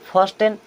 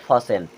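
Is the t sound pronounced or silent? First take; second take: pronounced; silent. First: The t sound is clearly pronounced. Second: The t sound is left silent. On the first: The speaker calls it wrong. "लेकिन इसे first N नहीं पढ़ते" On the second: The speaker calls it right. "टी silent होता है।"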